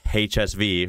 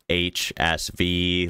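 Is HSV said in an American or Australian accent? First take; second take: Australian; American. First: It is said in an attempted Australian accent. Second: It is said in a flat, robotic American accent. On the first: "I know it's HSV" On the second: "American, of course, would be HSV, like kind of robotic"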